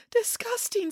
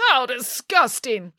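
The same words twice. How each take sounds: First: High, soft, tearful repeat; sobbing echo. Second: Disgusted. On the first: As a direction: echo it hurt, with a sob. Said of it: "said Echo with a sob". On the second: Narcissus rejects the pig nymph. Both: A narrator's reading.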